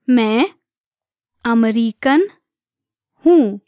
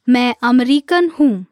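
First: Separated words, evenly spaced for learners. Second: Said in the usual way. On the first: Shown as a demonstration. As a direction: say each word alone, leaving space to repeat. Teacher breaks phrase down for learners.

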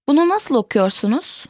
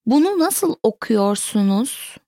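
First: Said in the usual way. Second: Careful teaching model. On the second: Shown as a demonstration. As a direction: enunciate each word with slight separation. Teacher repeats sentence slowly, then normally.

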